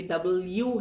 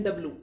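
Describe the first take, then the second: First: डबल यू slow, as two words; correct pronunciation. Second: डब्लू said "dablu", without the y sound; students' mispronunciation. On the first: Shown as a demonstration. Teacher correcting students, correct W. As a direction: separate डबल यू clearly, "double you". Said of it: "ये डबल यू है". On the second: Retold or imitated. Teacher imitating many students, mispronounced W. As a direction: run डब्लू into two syllables. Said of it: "कई छात्र बोलते हैं".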